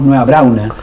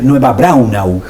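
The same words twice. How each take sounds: First: The final u sound is dropped. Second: The final u sound is clearly pronounced. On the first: This is how most people commonly say it. The speaker calls it wrong. "todos nosotros le decimos" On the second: This is the proper form of the name. The speaker calls it right. "pero es Nueva Braunau. Se claro, pronuncia la U al final"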